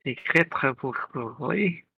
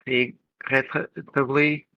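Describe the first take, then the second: First: Regrettably very slowly, with French throaty R; French-style R. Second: Re-, regrettably with a throaty French R; French accent. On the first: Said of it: "do this one". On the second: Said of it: "am I just adding a re to the R's". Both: Shown as a demonstration.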